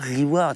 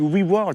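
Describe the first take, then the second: First: The word is said with a French accent. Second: The word is said with an English accent. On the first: The speaker calls it wrong. "ça se dit pas reward. Ça fait un peu trop, tu sais, francophone" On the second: The speaker calls it right. "ça se dit reward"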